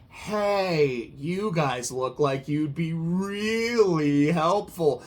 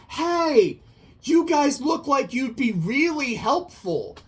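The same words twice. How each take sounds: First: It is said in a mocking, sarcastic tone. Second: It is said in a sincere, friendly tone. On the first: The praise means the opposite of what it says. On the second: The praise is meant genuinely.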